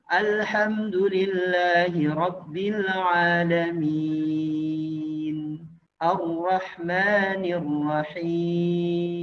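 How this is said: A clear pause separates the two verses.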